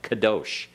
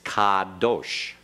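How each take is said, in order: First: The first vowel is a short, clipped half vowel. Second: The first vowel is a full, clear ah sound. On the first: The speaker calls it wrong. "like you were making a short half vowel, like kadosh" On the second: The speaker calls it right. "Make sure you get that ah in there very clearly. Don't shorten it"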